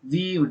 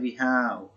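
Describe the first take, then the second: First: It is said as one short contracted syllable. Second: It is said as two full separate words. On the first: The speaker calls it right. "we have to pronounce it as we've" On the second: The speaker calls it wrong. "Don't say we have"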